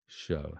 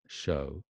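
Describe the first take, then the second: No difference in how they are said.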